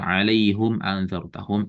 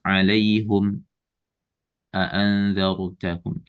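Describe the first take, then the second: First: The two words run on without a stop. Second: A brief stop comes after the first word. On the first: "Kemudian tanpa sakta"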